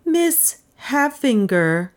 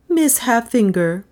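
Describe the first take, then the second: First: "Miss Halffinger" slow, with a gap after "Miss"; higher, drawn-out, deliberate "Miss Halffinger"; pointed. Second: Said in the usual way. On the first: A narrator's reading. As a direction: say "Miss", pause, then stretch "Halffinger" pointedly. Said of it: "said more pointedly". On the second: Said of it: "then said more pointedly".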